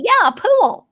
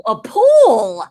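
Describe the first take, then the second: First: Loud, high Southern pool with an added syllable; Southern accent. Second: Slow, loud dawning realisation; northerner finally understanding. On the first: Southerner confirming pool to the northerner, emphatic Southern accent. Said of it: "I add a syllable to everything". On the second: Northerner finally understands the word, drawn-out imitated realisation. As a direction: draw out pool as it clicks. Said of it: "somebody from up north". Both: Retold or imitated.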